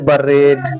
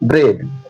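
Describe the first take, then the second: First: A short vowel separates the b and r. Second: The b and r are said together. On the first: The speaker calls it wrong. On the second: The speaker calls it right.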